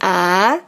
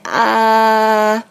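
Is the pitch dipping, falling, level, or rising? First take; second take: rising; level. First: The pitch rises from low to high. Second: The pitch stays high and level. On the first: "yang kedua itu kan dari bawah ke atas ya" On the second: "yang pertamanya itu kan garis horizontal ya dari kiri ke kanan"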